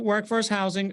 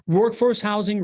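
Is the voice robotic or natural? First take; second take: robotic; natural. First: It is said in a flat, robotic voice. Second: It is said in a normal, natural voice.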